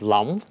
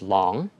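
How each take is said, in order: First: The name is said with Vietnamese pronunciation. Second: The name is said with American pronunciation. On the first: This is the name's own pronunciation. The speaker calls it right. "They didn't pronounce it as Long" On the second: This is how Americans said the name. The speaker calls it wrong. "they pronounced it as Long"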